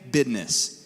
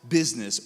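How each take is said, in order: First: It is said in an Ohio/West Virginia accent. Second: It is said in the speaker's usual accent.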